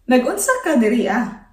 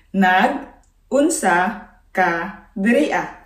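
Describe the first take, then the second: First: Said in the usual way. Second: Slow for learners. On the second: Shown as a demonstration. Slow repeat for learners to copy.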